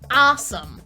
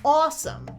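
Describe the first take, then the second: First: The first vowel is an open 'ah' sound. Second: The first vowel is a rounded 'aw' sound.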